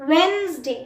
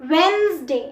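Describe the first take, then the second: No difference in how they are said.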